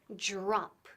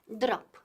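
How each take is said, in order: First: The first sound is close to an English J. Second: The first sound is a plain D. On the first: The speaker calls it right. "Suena un poco como la J inglesa" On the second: The speaker calls it wrong. "No es drop"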